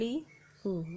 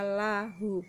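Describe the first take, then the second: First: The first vowel is a close 'i' sound. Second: The first vowel is an open 'a' sound. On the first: The speaker calls it wrong. "bukan lihu" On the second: The speaker calls it right. "Makanya dibaca lahu"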